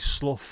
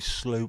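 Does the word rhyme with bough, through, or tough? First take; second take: tough; through. First: The vowel sounds like the one in 'cup'. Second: The vowel sounds like the one in 'too'. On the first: "as in tough or clough" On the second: "as in through"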